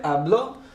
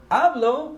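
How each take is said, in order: First: Habló stressed on the final ó, ah-BLO. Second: Hablo stressed on the first syllable, AH-blo; penultimate stress. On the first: Teacher contrasting stressed Habló with hablo. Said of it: "this is important because". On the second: Teacher showing the unaccented hablo, stress on HA. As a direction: stress HA in hablo, not the end. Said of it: "natural stress ... second to last". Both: Shown as a demonstration.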